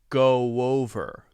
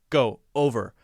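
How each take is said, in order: First: A light w sound links the two words. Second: The words are separated with no w sound. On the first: The speaker calls it right. "add a tiny little W between those two ... much more natural" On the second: The speaker calls it wrong. "if we just say O ... that doesn't sound natural"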